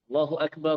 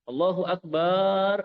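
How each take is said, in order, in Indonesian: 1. Suku kata ba dalam Akbar dibaca pendek. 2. Suku kata ba dalam Akbar dipanjangkan. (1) "Harus pendek" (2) "memanjangkan kata lafaz apa huruf ba-nya ... ini salah udah berubah artinya"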